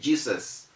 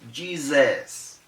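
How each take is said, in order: First: The middle consonant is a hissing S sound. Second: The middle consonant is a buzzing Z sound. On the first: The speaker calls it wrong. "A lot of people say Jesus" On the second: The speaker calls it right. "It has that Z sound"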